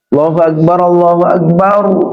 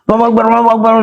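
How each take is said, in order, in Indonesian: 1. Diucapkan dengan lambat dan tenang. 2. Diucapkan dengan cepat dan tergesa-gesa. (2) "Iqamah itu kenapa buru-buru?"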